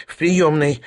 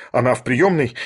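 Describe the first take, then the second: First: Higher, meek little answer; resigned character voice, pitched up; submissive. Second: Said in the usual way. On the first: A narrator's reading. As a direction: give in obediently. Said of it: "покорно ответил Шариков".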